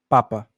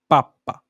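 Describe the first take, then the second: First: The middle p is short. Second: The middle p is held long. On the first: It means father. "que significa pai" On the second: It means baby food. "comida para bebê"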